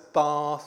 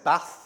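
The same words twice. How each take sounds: First: It is said in a southern English accent. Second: It is said in a northern Yorkshire accent. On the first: "sir, it's Bath" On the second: "I used to say Bath and Castle"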